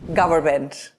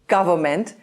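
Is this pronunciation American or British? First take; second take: American; British. First: It is said in an American accent. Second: It is said in a British accent. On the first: "in American English, they say" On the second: "In British pronunciation, we say"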